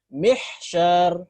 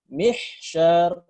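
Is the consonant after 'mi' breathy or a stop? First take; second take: breathy; breathy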